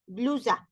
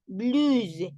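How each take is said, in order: First: Said in the usual way. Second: "blouse" said the French way, bluz; French pronunciation. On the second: Shown as a demonstration. (pronunciación francesa)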